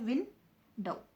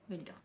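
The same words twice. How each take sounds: First: window broken into two beats, "विन", pause, "डो"; window pulled apart with a clear gap between win and dow; split into syllables. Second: Said in the usual way. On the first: Shown as a demonstration. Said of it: "pronounce करती हूँ तो क्या बनता है". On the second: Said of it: "window को मैं pronounce करती हूँ".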